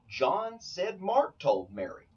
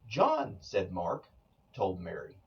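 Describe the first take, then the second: First: The sentence is said without any internal pause. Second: There are pauses after John and after Mark. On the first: John reported that Mark told Mary. "John told me that Mark told Mary" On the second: Mark is saying that John told Mary. "Mark is doing the speaking and he's saying that John told Mary"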